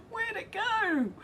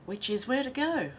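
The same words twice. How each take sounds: First: Much higher, slow, through laughter; laughing disbelief. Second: Said in the usual way. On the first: Real, not acted. Host laughing at a confusing chat comment, slow and high. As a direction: break up laughing at the words.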